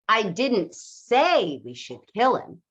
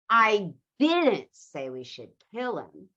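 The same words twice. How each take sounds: First: The stress falls on the word say. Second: The stress falls on the word kill.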